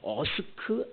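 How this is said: It is said with a British accent. The speaker learned British English. "영국 사람들은 어스크라고 발음을 합니다"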